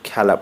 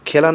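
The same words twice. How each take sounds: First: The first vowel is an open ae sound. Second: The first vowel is a close e sound. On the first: The speaker calls it right. "পড়ব" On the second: The speaker calls it wrong. "না পড়ে"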